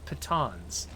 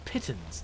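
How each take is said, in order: First: It is said the American, French-like way. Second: It is said the British, English-like way. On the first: "instead of pitons" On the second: "She says pittons"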